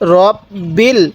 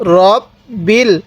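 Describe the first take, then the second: Both takes have the same delivery.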